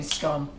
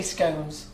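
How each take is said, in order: First: "scone" with a short o, as in "gone"; rhymes with gone. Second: "scones" with a long o, as in "bones"; household pronunciation. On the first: Host relaying Karen's way, short-o "scone". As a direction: say "scone" like "scon". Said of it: "scone should rhyme with gone". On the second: Host answering Karen with their own way, long-o "scones". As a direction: say "scones" to rhyme with "cones". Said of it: "Well, we say scones". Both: Shown as a demonstration.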